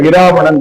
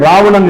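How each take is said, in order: First: The word starts with an i vowel before r. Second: The word starts directly with the r sound. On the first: The speaker calls it right. "Tamil அப்படி வராது. இராவணன் அப்படின்னு சொல்லணும்" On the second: The speaker calls it wrong. "ராவணன் இல்ல"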